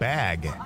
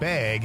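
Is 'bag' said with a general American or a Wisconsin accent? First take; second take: general American; Wisconsin. First: It is said with a general American accent. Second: It is said with a Wisconsin accent. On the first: "instead of" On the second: "As Wisconsin is saying the word bag"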